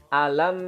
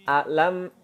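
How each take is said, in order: Both takes have the same delivery.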